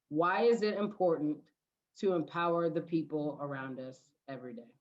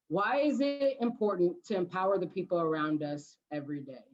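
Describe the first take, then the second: First: It is said more slowly. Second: It is said at a normal pace.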